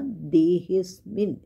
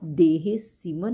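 First: The s and m sounds form a cluster. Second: A vowel separates the s and m sounds. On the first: The speaker calls it right. "एक के बाद आधा स" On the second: The speaker calls it wrong. "देहे सिमन नहीं बोलना"

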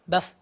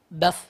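The two takes are said the same way.

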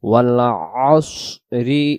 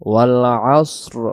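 First: The voice carries 'asri' straight into the next words. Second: The voice stops on a bare final 'asr'. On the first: The recitation joins the verse to the next one. "যদি দম ধরে যাই" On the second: The recitation pauses at the end of the verse. "যদি আমরা দমটা ছেড়ে দিই এভাবে"

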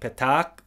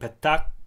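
First: The two vowels merge into one long vowel. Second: The two vowels merge into one short vowel. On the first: "the two vowels are pronounced together as a long vowel" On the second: "the two vowels are pronounced as a short vowel"

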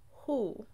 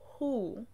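First: The H at the start is soft. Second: The same.

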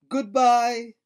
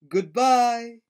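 Both takes have the same delivery.

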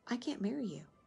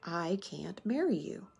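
First: The words are said at a soft volume. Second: The words are said at a loud volume. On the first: No one hears it over the music. "The words are drowned out by the wedding march" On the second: People nearby can hear it. "so I say it louder"

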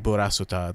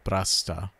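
First: Every vowel is voiced, giving four syllables. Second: The vowel after s is dropped, giving three syllables. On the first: The speaker calls it wrong. "They don't say burasuta" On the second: The speaker calls it right. "they say brasta"

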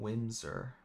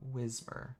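First: The m sound comes before the s sound. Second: The s sound comes before the m sound. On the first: The speaker calls it wrong. "I always mispronounce his name. I always call him Whimsir" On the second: The speaker calls it right. "but it's Whismur"

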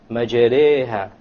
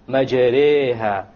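No difference in how they are said.

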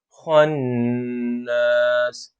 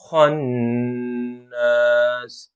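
The two takes are said the same way.

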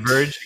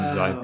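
First: The name begins with the letter Z sound. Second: The name begins with a sound like 'die'. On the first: "like Scala Z" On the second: "I think it's like diverge"

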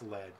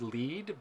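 First: The word rhymes with bed. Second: The word rhymes with bead. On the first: The title refers to the metal used in bullets. The speaker calls it right. "I think it's Lead because you're like, it's a shooter" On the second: The title means to guide or go first. The speaker calls it wrong. "I thought it was Lead"

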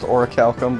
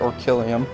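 First: The word ends in 'kum' with a final k. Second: The word ends in 'lee-um' with no final k. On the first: The speaker calls it right. "it's pronounced Orichalcum" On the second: The speaker calls it wrong. "I pronounced it Orkillium"

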